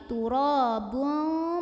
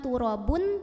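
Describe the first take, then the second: First: The final n is blurred with a nasal hum. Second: The final n is sounded fully and clearly. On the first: The speaker calls it right. "tapi turabun, mau bilang fa ... samar-samar sambil ada dengungannya" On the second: The speaker calls it wrong. "bukan turabun"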